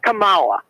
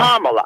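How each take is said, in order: First: The stress falls on a later syllable. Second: The stress falls on the first syllable. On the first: The speaker calls it wrong. "It's not Kamala" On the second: The speaker calls it right. "The accent is on the first"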